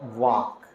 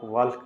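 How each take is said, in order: First: The L is silent in the word. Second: The L is clearly pronounced in the word. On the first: The speaker calls it right. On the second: The speaker calls it wrong.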